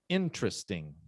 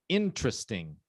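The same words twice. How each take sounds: First: The second syllable is dropped, leaving three. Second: The second syllable is dropped, leaving three.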